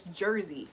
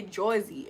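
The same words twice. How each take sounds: First: Said in the usual way. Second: Jersey said as "Joizy"; mispronounced Jersey. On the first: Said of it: "I can say Jersey". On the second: Shown as a demonstration. Streamer showing their usual slip, Jersey as "Joizy". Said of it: "A lot of times I say Jersey".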